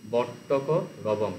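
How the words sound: The word break falls after 'vattaka'. The quail made its call. The speaker calls it right. "একাধিক ওয়ার্ড যদি জোড়ে সেটাকে একটু ঠিক করে পড়বে"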